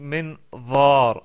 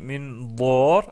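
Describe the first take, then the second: First: The middle consonant is an emphatic th sound. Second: The middle consonant is an emphatic d sound. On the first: The speaker calls it right. "j'ai dit minvar" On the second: The speaker calls it wrong. "j'ai pas dit minvar"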